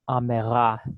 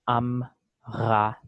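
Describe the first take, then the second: First: A short vowel is heard between the m and r. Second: The m and r are joined with no vowel. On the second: This is the modern Israeli pronunciation. "we will say amra"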